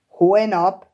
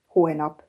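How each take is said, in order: First: "Holnap?" as a louder, startled question; startled exclamation. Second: Said in the usual way. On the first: A narrator's reading. Cassie hearing Bo leaves tomorrow, startled "Holnap?". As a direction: echo "Holnap?" back in sudden surprise. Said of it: "kiáltott fel Cassie".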